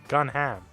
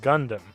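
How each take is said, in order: First: The name has no d sound in the middle. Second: The name has a d sound in the middle. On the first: The speaker calls it right. "His name is Gunham" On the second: The speaker calls it wrong. "His name is not Gundam"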